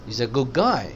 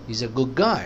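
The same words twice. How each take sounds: First: He's a good guy, good and guy hit clearly, He's a reduced; stress on good and guy. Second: He's a good guy, guy given the weight, he's a light; stress on good and guy again. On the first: Teacher modelling sentence stress for students. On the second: Teacher repeating the model sentence for the class. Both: Shown as a demonstration. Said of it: "So good और गाय को stress देंगे".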